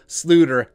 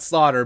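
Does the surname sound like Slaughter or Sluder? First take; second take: Sluder; Slaughter. First: The name is said with an oo vowel. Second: The name is said like the word slaughter. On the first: The speaker calls it right. "it is the Dutch pronunciation" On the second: The speaker calls it wrong. "it's not Slaughter"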